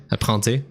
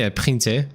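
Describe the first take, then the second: First: "printer" with a nasal French "in", no sounded n; Frenchify "printer" as "prain-té" with a nasal vowel. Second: "printer" with the English "prin" and a French ending; English-style vowel. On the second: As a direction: say "printer" with a sounded n after a short i. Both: Real, not acted. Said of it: "je sais pas, à printing".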